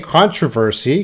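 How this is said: It is said with a Canadian pronunciation.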